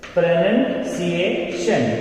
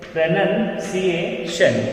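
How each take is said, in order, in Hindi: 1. दूसरा अक्षर 'nun' जैसा सुनाई देता है। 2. दूसरा अक्षर 'nun' जैसा सुनाई देता है।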